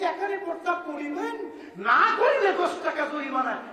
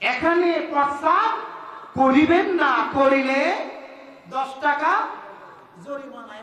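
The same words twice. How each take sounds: First: The pause comes right after 'koriben'. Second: The pause comes right after 'na'.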